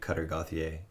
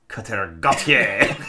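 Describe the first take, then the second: First: The surname has a plain English pronunciation. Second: The surname has a more French pronunciation. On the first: It copies how someone else says the name. The speaker calls it wrong. "just the way you say his name" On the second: It is how the speaker says the name. The speaker calls it right. "For me, it's a little more"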